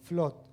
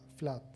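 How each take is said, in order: First: The vowel sounds like o. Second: The vowel sounds like a.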